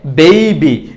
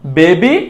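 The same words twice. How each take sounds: First: বেবি as "bei-bi"; correct pronunciation. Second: বেবি as "be-bi"; wrong pronunciation. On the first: Teacher giving the correction, বেবি with ei. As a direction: glide e to i in the first syllable of বেবি. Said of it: "সঠিক উচ্চারণটা হবে". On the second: Teacher flagging the mistake, বেবি without a glide. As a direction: hold a pure e in বেবি. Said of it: "এটা ভুল উচ্চারণ". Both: Shown as a demonstration.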